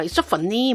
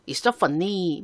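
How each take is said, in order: First: Hong Kong-accented English with a rising "so"; a Hong Kong English demo with a sing-song rise. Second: Chinese-accented English with a falling end on "so"; a Chinese-accented English demo that drops at the end. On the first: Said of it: "홍콩 가면 많이 이렇게 얘기하죠". (홍콩식 억양 영어, 올려서) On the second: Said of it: "가까운 중국만 하더라도 중국식 억양이 있어요". (중국식 억양 영어, 끝을 내려서) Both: Shown as a demonstration.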